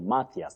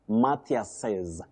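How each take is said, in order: First: The name ends without any added syllable. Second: An extra vowel syllable is added at the end. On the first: The possessive is written with an apostrophe alone. "when you have that apostrophe after S to show possession, ... you just say Matthias" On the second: The possessive is written with an apostrophe and an S. "if there is an S after that apostrophe, ... you add what we call an intrusive vowel sound"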